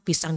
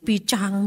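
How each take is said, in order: First: The middle consonant is a plain s sound. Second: The middle consonant is a ch sound.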